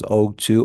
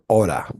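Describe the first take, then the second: First: Both words are said fully, with a clear t. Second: The words blend into one reduced word, 'ora'. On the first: "You could pronounce this as ought to" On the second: "or ora. ora is more common"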